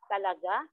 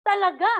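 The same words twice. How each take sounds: First: Lower, softer, rising Talaga?; doubtful question. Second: Talaga said much higher and louder; emphatic Talaga. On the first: Teacher demonstrating a doubting Talaga? with rising tone. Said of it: "pareho sa pag-aalinlangan". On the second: Teacher demonstrating a forceful, certain Talaga. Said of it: "galit ka na". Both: Shown as a demonstration.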